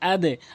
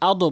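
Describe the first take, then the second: First: The end sound is pushed downward. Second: The end sound is pushed upward. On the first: The speaker calls it right. "নিচের দিকে sound" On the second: The speaker calls it wrong. "আদো বলা যাবে না"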